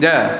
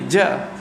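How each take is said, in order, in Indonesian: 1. Konsonan dilepas tanpa nafas keluar. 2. Konsonan dilepas dengan hembusan nafas. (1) "Tapi ja" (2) "jangan bunyi ja"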